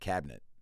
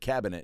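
First: The middle i is dropped, leaving two syllables. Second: All three syllables are pronounced, with the middle i. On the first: "C-A-B, they drop the I" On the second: "you said cabinet"

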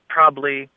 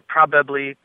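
The two takes are said the same way.

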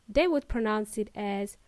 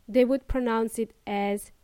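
The two takes are said the same way.

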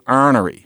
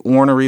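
First: The first vowel sounds like 'ar'. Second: The first vowel sounds like 'or'. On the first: "they say arnery" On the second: "There are people who don't say ornery"

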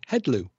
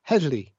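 First: It is said with English sounds instead. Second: It is said with the native Welsh sounds. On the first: The speaker calls it wrong. "So the English would say heddlu" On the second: The speaker calls it right. "in Welsh, the word for the police is heddlu"

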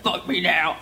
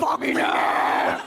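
First: The voice is deep and growly, like a demon. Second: The voice is not deep or growly. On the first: The speaker calls it wrong. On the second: The speaker calls it right.

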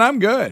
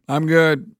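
First: The voice sounds livelier and more enthusiastic. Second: The voice sounds flat and unconvincing. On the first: The speaker calls it right. "let me do that again. Is that better?" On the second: The speaker calls it wrong. "That doesn't sound very convincing"

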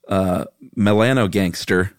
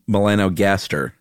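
First: An extra n sound makes it contain 'gangster'. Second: There is no extra n sound before 'gaster'. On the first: The speaker calls it wrong. "it's impossible to read this next word without reading it like this" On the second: The speaker calls it right. "But it's not gangster"

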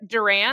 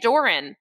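First: The stress is on the second syllable. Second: The stress is on the first syllable. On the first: The speaker calls it right. "so it's what, Duran" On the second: The speaker calls it wrong. "I put the emphasis on the O in the front"

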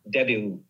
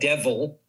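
First: The middle consonant is a b sound. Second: The middle consonant is a v sound. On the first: The speaker calls it right. "Debil, not devil" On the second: The speaker calls it wrong. "not devil"

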